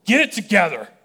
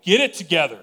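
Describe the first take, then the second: First: "Get it together" shouted much higher and louder, hard on "it"; yelling at yourself. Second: A mildly raised "Get it together", loudness up, pitch barely moved; half-hearted mock yell at the crowd; imitated yell. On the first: Retold or imitated. Preacher shouting at himself in the mirror, full exasperated yell. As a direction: bark "Get it together" at your own reflection. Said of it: "just yell". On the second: Preacher imagining Jesus yelling at people, mild mock yell. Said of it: "Jesus should just yell".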